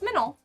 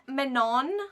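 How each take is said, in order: First: The final n is dropped, leaving a nasal vowel. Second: The final n is clearly pronounced. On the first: This is how the name should be said. The speaker calls it right. "you're not pronouncing the N" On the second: Someone else says the name this way. The speaker calls it wrong. "Saying like"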